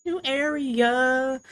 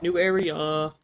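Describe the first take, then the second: First: High, drawn-out announcement; excited. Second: Said in the usual way. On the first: Acted. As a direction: stretch it out gleefully. Excited repeat, higher and slower.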